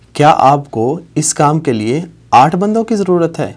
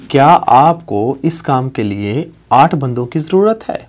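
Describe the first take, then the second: No difference in how they are said.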